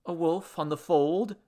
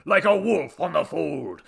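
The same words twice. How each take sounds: First: Questioning offer of the missing words; tentative rising question; helpful prompt. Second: Loud, high, grandiose statement falling at the end; pompous declamation. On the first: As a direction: suggest it with a rising end. Henry prompts the missing phrase. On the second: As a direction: proclaim it as your own epic line. God resumes declaiming with it. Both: Acted.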